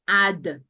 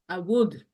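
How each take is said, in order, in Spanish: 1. Se dice como una sílaba contraída. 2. Se dice como dos palabras completas.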